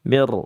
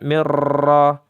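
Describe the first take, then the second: First: The r is trilled lightly, few bounces. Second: The r is trilled heavily, many bounces. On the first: The speaker calls it right. "Begitu ya" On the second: The speaker calls it wrong. "Jangan juga mirra, mirra. Nah ini baru takalluf"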